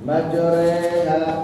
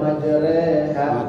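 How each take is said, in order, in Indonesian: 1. Vokal setelah r adalah e bulat. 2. Vokal setelah r adalah e biasa. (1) "Bukan merubah menjadi re, tapi terdengar re" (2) "kita gampangin aja, majreha gitu ya. Itu pun tidak salah"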